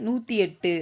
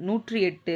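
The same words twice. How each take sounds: Both takes have the same delivery.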